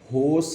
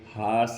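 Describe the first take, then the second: First: The vowel is a closed 'oh' sound. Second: The vowel is an open unrounded 'ah' sound. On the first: "ना ये होस है" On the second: "ना ये हास है"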